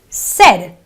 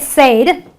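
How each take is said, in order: First: The vowel is a short 'eh' sound. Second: The vowel is a long 'ay' sound. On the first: The speaker calls it right. "It is a eh sound. So it is a said, an eh sound" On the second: The speaker calls it wrong. "You don't say said. ... It's not an A sound"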